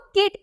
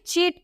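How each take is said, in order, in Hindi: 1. शब्द K की आवाज़ से शुरू होता है। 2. शब्द CH की आवाज़ से शुरू होता है। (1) "किट पढ़ने लगता है" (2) "चीट को"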